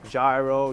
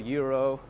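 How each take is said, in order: First: The word begins with a G sound. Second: The word begins with a Y sound. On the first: "the American pronunciation, they try to pronounce everything the way it's spelled" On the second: "the G in gyro is actually pronounced like a Y"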